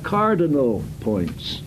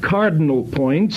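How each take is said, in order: First: All the vowels in cardinal are fully sounded. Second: The unstressed vowels in cardinal are dropped. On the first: The speaker calls it right. "but you have cardinal points" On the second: The speaker calls it wrong. "You do not have cardinal points, C-A-R-D apostrophe N apostrophe L"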